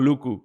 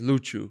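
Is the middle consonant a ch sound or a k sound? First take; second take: k; ch. First: The middle consonant is a hard k sound. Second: The middle consonant is a ch sound. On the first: The speaker calls it wrong. "What do you mean?" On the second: The speaker calls it right. "the pronunciation is Luchu"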